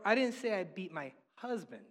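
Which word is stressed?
husband. The stress falls on the word husband. The person beaten was someone else of mine. "I beat somebody and they were mine, but not my husband"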